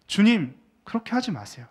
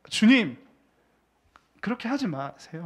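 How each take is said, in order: First: Peter protesting. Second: Brusque, nearly informal protest; half-casual protest. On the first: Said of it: "이렇게 이야기를 하는 겁니다". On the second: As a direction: say it to Jesus like talking down to a peer. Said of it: "약간 반말 비슷하게". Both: Acted.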